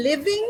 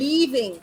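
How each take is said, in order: First: LIVING with a short, lax i; quick i in the first syllable of living; short vowel. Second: LEAVING with a long, tense ee; stretched first vowel in leaving. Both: Shown as a demonstration. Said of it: "Two different pronunciations and two different meanings".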